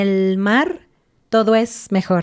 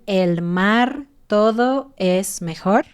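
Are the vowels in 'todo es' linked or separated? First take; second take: linked; separated. First: The final O joins the following E smoothly. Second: The words are separated, with no vowel linking. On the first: The speaker calls it right. "todo es la O y la E, las estoy juntando" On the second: The speaker calls it wrong. "suenas muy robótico"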